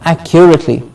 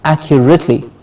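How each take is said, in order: The two takes are said the same way.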